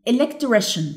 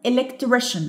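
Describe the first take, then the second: No difference in how they are said.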